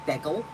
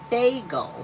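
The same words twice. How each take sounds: First: The first syllable sounds like 'beg'. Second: The first syllable sounds like 'bay'. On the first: The speaker calls it wrong. "not bagel. Like bagel would be like B E G" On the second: The speaker calls it right. "It's bagel"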